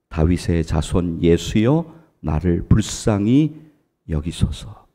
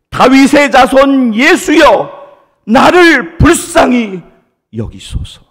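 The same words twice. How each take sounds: First: It is said at a softer volume. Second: It is shouted at a loud volume.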